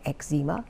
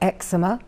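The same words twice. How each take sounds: First: It is said the American way. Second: It is said the speaker's own, non-American way.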